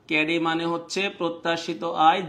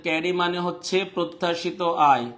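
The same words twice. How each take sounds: The two takes are said the same way.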